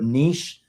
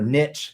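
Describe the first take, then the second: First: The word ends with a 'sh' sound. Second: The word ends with a 'ch' sound. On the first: "put a sh at the end of it" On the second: "put a th at the end of it"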